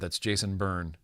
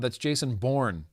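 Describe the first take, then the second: First: Bourne is said with the vowel of burn. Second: Bourne is said with the vowel of born. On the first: The speaker calls it wrong. "You don't say" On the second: The speaker calls it right. "You say"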